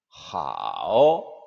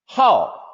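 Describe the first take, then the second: First: The pitch dips low then rises. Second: The pitch falls sharply from high.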